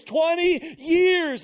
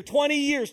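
First: "twenty years" stretched out slow, higher and louder; "twenty years" hammered, slow and loud; stress on twenty years. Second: Said in the usual way. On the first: Shown as a demonstration. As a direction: drag out "twenty years" to drive it home. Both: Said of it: "repeated for emphasis".

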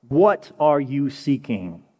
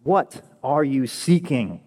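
First: Very slow, each word weighed: What are you seeking; slow weighty question. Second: Slowly, What falling: What are you seeking; slow earnest question. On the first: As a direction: lean on What, let it hang. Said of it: "the first words of Jesus spoken". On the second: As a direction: ask it to every listener. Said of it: "the first words of Jesus are". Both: Shown as a demonstration.

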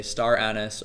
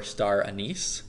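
First: "anise" said as AN-iss, stress first; "anise" with short, unstressed ending; AN-iss pronunciation. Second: "anise" said as uh-NEECE, stress last; "anise" with long ee ending; ah-NEECE pronunciation. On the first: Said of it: "most people either say star anise". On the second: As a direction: say "anise" so it ends like "niece". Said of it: "or star anise". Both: Shown as a demonstration.

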